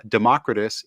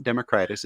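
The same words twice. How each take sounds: First: "Democritus" stressed on the second syllable, de-MOCK-ri-tus; preferred pronunciation. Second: "Democritus" said as demo-CRY-tus; rejected pronunciation. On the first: Host introducing the book's title, stressing the MOCK in "Democritus". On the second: Host showing how not to say it, "Democritus" as demo-CRY-tus. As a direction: stress a long CRY in "Democritus". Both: Shown as a demonstration. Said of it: "It's not Democritus".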